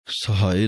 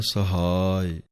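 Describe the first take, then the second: First: ਸਹਾਇ said as sahae, the wrong vowel; wrong pronunciation. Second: ਸਹਾਇ said sahai, the ha long and the i short; correct pronunciation. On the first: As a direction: demo the mistaken ਸਹਾਇ. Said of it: "ਸਹਾਇ ਨਹੀਂ ਕਹਿਣਾ ਹੈ". (ਗਲਤ ਉਚਾਰਨ ਸਹਾਏ) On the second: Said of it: "ਹਾਹੇ ਨੂੰ ਕੰਨਾ ਹੈ". (ਸਹੀ ਉਚਾਰਨ ਸਹਾਇ) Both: Shown as a demonstration.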